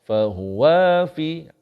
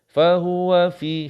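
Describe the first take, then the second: First: The 'wa' syllable is drawn out long. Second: The 'wa' syllable is short and quick. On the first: "Kalaulah kita terlewat sikit. ... Salah. Wa tu jadi dua harkat" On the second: "Atau macam ni laju"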